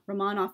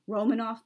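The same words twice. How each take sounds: First: The name is pronounced the Russian way. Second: The name is pronounced the English way. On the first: The speaker calls it right. "is the proper Russian pronunciation" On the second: The speaker calls it wrong. "many English-speaking people say Romanov, but that's actually not correct"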